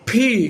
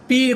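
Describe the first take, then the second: First: The p is released with a puff of air. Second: The p is released plainly without air. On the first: The speaker calls it right. "ফি ঠোঁট বদ্ধ করতে হবে" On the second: The speaker calls it wrong. "পি কখনো বলবে না"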